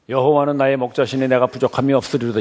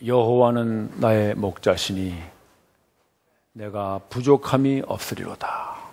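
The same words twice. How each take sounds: First: It is read flatly without poetic feeling. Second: It is read with a poetic, measured rhythm.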